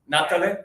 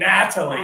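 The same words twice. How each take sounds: First: The name is said the Brazilian way. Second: The name is said the American way.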